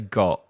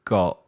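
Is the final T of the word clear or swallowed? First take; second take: swallowed; swallowed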